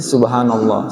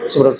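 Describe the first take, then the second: First: It is said slowly and carefully. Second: It is said fast and hurried.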